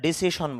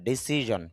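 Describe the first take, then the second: First: The middle consonant is a voiceless 'sh' sound. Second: The middle consonant is a voiced 'zh' sound. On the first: The speaker calls it wrong. "ডিসিশন না" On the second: The speaker calls it right.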